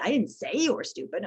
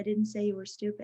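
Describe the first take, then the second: First: The stress falls on the word say. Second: It is flat, with no word stressed. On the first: The thought was there but was not spoken. "I think you were stupid, but I didn't say it" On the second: The intended meaning is unclear. "When they're monotone"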